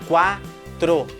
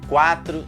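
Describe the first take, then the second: First: It is said slowly. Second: It is said at normal speed.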